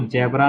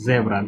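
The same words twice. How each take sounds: First: The word begins with a j sound. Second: The word begins with a z sound. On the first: The speaker calls it wrong. "इसको जेब्रा नहीं पढ़ना है" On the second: The speaker calls it right. "जॉ नहीं है, ज है"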